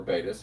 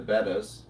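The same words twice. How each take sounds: First: "betas" with a long a, BAY-tuhz; long-a pronunciation. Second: "bettas" with a short e, BET-uhz; short-e pronunciation. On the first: Host offering viewers the other pronunciation, "betas" as BAY-tuhz. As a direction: say "betas" like the Greek letter beta. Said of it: "however you prefer to say it". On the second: Host naming the fish for viewers, "bettas" as BET-uhz. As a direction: say "bettas" to rhyme with "settas". However you prefer to say it. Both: Shown as a demonstration.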